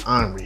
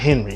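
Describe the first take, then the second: First: The name is said with French pronunciation. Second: The name is said with English pronunciation. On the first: The speaker calls it right. "it's Henri. It's French" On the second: The speaker calls it wrong. "His name's not Henry"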